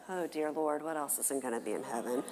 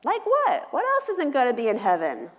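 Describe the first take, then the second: First: Low, quiet mutter to herself; inner dismay. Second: Put-on very high, eager kid voice; child piping up. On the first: Retold or imitated. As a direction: echo the question lower and quieter, dreading it. Mom's inner dismay echo. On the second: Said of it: "another child pipes up".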